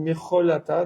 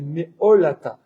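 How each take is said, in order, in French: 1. Un son guttural 'kh' est au milieu. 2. Aucun son guttural 'kh' n'est au milieu. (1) "j'ai mal prononcé tout à l'heure. J'ai dit Mecholata" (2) "donc c'est Meolata"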